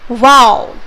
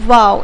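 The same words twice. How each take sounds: First: The word is said with strong, forceful emphasis. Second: The word is said plainly, without extra force. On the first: The feeling is strong. "तो आप उस पर ज्यादा stress दे रहे हो" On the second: The feeling is mild. "अगर हम simply बोलते हैं इसको वाओ"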